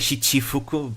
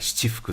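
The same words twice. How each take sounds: First: The chi sound is said hard and strong. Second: The chi sound is said soft and light. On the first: The speaker calls it wrong. "usually you don't say chi as as harsh as that" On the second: The speaker calls it right. "You tend to say more subtle"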